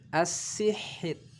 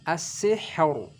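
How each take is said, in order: First: The r sound is thin and light. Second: The r sound is heavy and full. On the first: The speaker calls it right. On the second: The speaker calls it wrong. "Jadi tidak dibaca"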